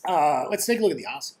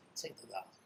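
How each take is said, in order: First: Said in the usual way. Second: Whispered. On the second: Pretend. Trader whispering an aside to himself while distracted. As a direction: whisper it, far softer, no voice.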